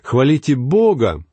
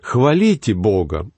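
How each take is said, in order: First: The stress falls on the word Бога. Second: The stress falls on the word хвалите. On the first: The focus is on whom to praise. "Мы говорили «хвалите Бога»" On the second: The focus is on why praise is needed. "Перенесем ударение на глагол"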